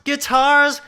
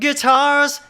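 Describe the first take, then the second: No difference in how they are said.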